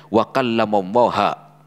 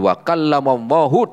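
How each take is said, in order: First: Wa kallamallaha ending in -ha, falling; altered vowel. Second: Wa kallamallahi ending in -hi, rising; correct vowel. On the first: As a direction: read Wa kallamallaha with the final a. (harakat diubah kallamallaha) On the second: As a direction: read Wa kallamallahi with the final i. (harakat benar kallamallahi) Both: Shown as a demonstration. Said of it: "diganti sama dia".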